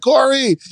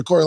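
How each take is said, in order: First: Raised, higher call of the name; a parent calling her child by name. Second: Said in the usual way. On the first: Retold or imitated. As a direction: call Corey across the room. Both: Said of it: "I'll call my daughter".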